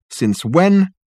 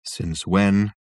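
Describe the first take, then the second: First: High sharp surprised question; startled. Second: Abject. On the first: Acted. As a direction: demand it in disbelief. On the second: A narrator's reading. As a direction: repeat it hopelessly. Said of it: "said the ghost abjectly".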